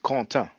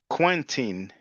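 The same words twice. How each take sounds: First: The name is pronounced the French way. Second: The name is pronounced the English way.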